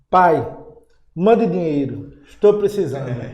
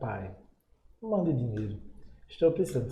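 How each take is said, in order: First: It is read in a rude, demanding tone. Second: It is read in a gentle, respectful tone. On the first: The son is being disrespectful to his father. The speaker calls it wrong. "Caba safado, rapaz" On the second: The son is speaking to his father with respect. The speaker calls it right. "falar com o pai, com respeito"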